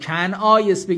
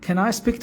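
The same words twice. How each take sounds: First: The word 'can' has a Persian-style 'kan' vowel. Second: The word 'can' has an American-style vowel. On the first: The speaker calls it wrong. "کن این can I نگید ... نه" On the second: The speaker calls it right. "این خیلی مهمه اینجوری بگید"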